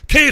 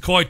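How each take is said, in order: First: The name has a non-Irish pronunciation. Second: The name has the Irish pronunciation. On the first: "But you're Kate" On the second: "the Irish pronunciation, which is Coit"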